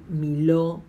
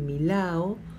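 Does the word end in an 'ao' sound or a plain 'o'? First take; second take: o; ao. First: The 'a' is dropped, ending in plain 'o'. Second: The 'a' before the final 'o' is pronounced. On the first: "diga miló" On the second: "es probable que la A no se diga"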